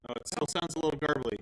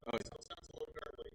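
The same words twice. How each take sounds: First: Said in the usual way. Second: Soft breathy whisper, no voice. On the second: Shown as a demonstration. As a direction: whisper it close to the mic. Repeating line as audio test.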